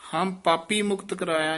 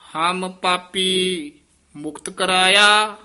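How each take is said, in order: First: It runs on with no pause. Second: There is a pause after 'ham papi'. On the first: The speaker calls it wrong. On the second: The speaker calls it right.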